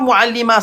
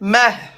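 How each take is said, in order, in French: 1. Le mot finit sur une voyelle simple, sans souffle. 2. Le mot finit par de l'air expiré après la voyelle. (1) "c'est pas Muallima, ça n'existe pas" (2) "il y a le ha, il y a de l'air qui sort à la fin"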